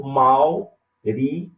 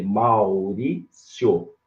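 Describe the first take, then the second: First: Maurício in four slow chunks, MAU-RÍ-CI-O; divided in syllables. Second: Maurício in three chunks, MAU-RÍ-CIO; divided in syllables. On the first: Teacher giving the other division, Maurício slowly as MAU-RÍ-CI-O. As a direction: split Maurício with CI and O apart. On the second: Teacher dividing a student's name, Maurício as MAU-RÍ-CIO. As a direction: split Maurício with the last part joined, CIO. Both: Shown as a demonstration. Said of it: "Você pode dividir".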